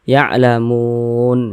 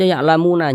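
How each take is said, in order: First: The word ends on a bare n sound. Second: The word ends with a vowel after n. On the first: The reader stops at this word. The speaker calls it right. "kita berwakaf di huruf nun kita baca ya'lamun" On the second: The reader carries on without stopping. The speaker calls it wrong. "jangan dibaca ya'lamuna"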